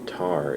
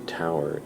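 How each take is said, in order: First: It rhymes with the word tar. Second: It rhymes with the word tower. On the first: "it sounds like T A R" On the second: "it sounds like T O W E R"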